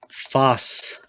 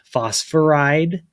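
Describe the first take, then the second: First: "phosphide" split as "fos... fide"; "phosphide" broken after "fos"; two syllables. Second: "Phosphoride" drawn out as "fos-for-ide"; "Phosphoride" slow, in three syllables. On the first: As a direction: say "phosphide" in two separate syllables, with a long gap. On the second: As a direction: say "Phosphoride" slowly, keeping the middle "for". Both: Shown as a demonstration. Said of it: "that'd be three syllables".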